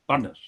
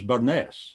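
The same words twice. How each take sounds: First: The stress is on the first syllable. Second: The stress is on the second syllable. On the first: The speaker calls it right. "the accent is clearly on the first syllable" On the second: The speaker calls it wrong. "I thought it was Burness"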